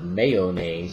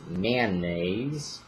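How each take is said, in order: First: It is said the general, non-regional way. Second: It is said the local regional way. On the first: "instead of" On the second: "that's another regionalism"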